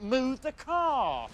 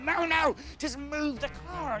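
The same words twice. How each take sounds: First: High, very drawn-out demand; pained plea. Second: Exasperated plea. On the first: Man with a car on his foot pleading, high and drawn out. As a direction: stretch it out high, in mock agony. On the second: Man with a car on his foot interrupting, exasperated and high. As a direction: cut in high and slow down on the demand. Repeats plea over onlookers' analysis. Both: Retold or imitated.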